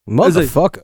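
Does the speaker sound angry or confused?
confused. The word is said in a confused, puzzled tone. The speaker does not understand what is happening. "Confused motherfucker"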